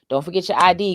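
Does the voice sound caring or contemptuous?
contemptuous. It is said in a scornful, forceful tone. The reminder belittles the listener as forgetful. The speaker calls it wrong. "they come with disrespect"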